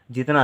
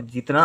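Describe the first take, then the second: First: First vowel of "जितना" stretched to jeet-naa; long ee. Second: "जितना" with a brief first vowel, jit-naa; short i. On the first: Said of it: "जितना अलग बात है और जितना". ("जितना" को जीतना जैसा, लंबी ई से) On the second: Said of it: "और जितना अलग बात है". ("जितना" में इ को छोटा रखकर) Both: Shown as a demonstration.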